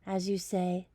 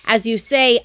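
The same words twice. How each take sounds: First: Very soft, quiet as you say; soft bedtime lead-in. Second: Loud, falling as you say; louder lead-in. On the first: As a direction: hush it for bedtime. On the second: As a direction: build up before the screech. Lead-in before koala screech. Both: Acted.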